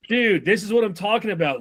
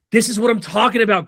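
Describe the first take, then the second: First: High pitched again, stressing what; repeated high demo line. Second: Pitched up high, stressing what; pointed high demo line. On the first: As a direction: say it higher with a jab on what. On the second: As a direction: lift the voice and lean on what, like a boss. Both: Shown as a demonstration.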